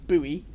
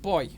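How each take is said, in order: First: The word is said the American way, unlike 'boy'. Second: The word is said exactly like 'boy'. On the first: The speaker calls it wrong. "sorry Americans, but it's not buoy" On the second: The speaker calls it right. "it's pronounced boy"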